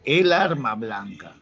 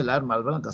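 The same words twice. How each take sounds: First: Slow "el arma blanca", EL drawn out; corrective stress on EL. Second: Said in the usual way. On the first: Shown as a demonstration. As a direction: stretch "el" to mark the correct article. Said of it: "sino se dice el arma blanca". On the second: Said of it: "no se dice la arma blanca".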